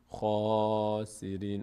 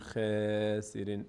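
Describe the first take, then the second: First: The first vowel is full and heavy. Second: The first vowel is thin and light. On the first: The speaker calls it right. "میگیم خاسرین ... دهان به سمت بالا باز میشه" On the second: The speaker calls it wrong. "نمیگیم خسرین"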